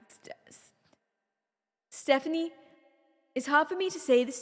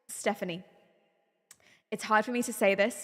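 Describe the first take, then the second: First: It is said in a put-on Liverpool accent. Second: It is said in the speaker's ordinary accent.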